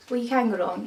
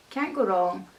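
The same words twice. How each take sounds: First: Can pushed up and louder; stress on can. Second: Said in the usual way. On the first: Shown as a demonstration. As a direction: lean hard on can with a rising tune.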